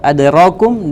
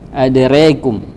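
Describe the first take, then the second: First: The vowel after r is an open a. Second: The vowel after r leans toward e.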